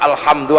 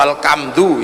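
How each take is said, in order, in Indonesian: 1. Diucapkan dengan lafal bahasa Arab baku. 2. Diucapkan dengan logat Jawa.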